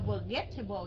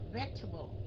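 First: The middle 'get' syllable is pronounced in full. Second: The middle 'get' syllable is dropped from the word. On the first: The speaker calls it wrong. "Mình không có đọc là vegetable nha" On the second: The speaker calls it right. "Không có đọc cái âm get ở trong đó"

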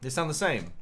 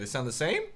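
First: The voice falls at the end. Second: The voice rises at the end.

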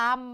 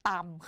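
First: The syllable has its plain, unmarked tone. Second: The syllable has the mai ek tone. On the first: "ตออำตำ" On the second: "ไม้เอกต่ำค่ะ"

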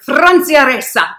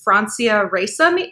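First: The name is said Spanish-style with rolled r's. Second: The name is said American-style with plain r's. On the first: This is how the name's owner says it. "every time she says her own name, she says it like" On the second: This is an anglicized way of saying the name.

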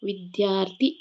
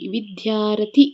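First: The r and th are joined as a cluster. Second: A short vowel separates the r and th. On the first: "ಮೊದಲೇ ರ ಅಕ್ಷರ ಉಚ್ಚಾರ ಬಂದು ನಂತರ ಥ" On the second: "ಮೊದಲನೇದಾಗಿ ನಮಗೆ ಕೇಳಿಸೋದು ವಿದ್ಯಾರಥಿ"

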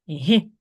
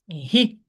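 First: The consonant is soft, palatalized. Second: The same.

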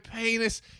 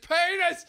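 First: The word is said at medium loudness. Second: The word is shouted loudly. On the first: The word is barely noticed. "And then she kind of notices" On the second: The game is taken too far. "takes it too far and goes"

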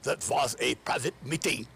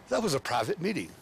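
First: It is said in a put-on German accent. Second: It is said in a plain American accent. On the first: The speaker puts on an affected foreign persona. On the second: The speaker slips into his natural way of talking.

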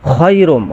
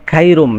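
First: The word starts with a raspy kh sound. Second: The word starts with a hard k sound. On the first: The speaker calls it right. "বলতে হবে খায়রুম খা" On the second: The speaker calls it wrong. "অনেকেই এভাবে বলে ... খাপ দিয়ে উচ্চারণ করে, এটা সম্পূর্ণ ভুল"

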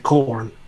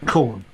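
First: The R sound is clearly pronounced, rhotic. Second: The R sound is dropped, non-rhotic. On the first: "America would say corn. They would give more emphasis to the R" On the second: "We'd still say corn"

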